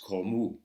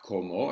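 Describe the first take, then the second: First: The final vowel sounds like a u. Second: The final vowel sounds like an o. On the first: The speaker calls it right. "it's como. U. The, the O is in fact an U" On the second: The speaker calls it wrong. "it's not como"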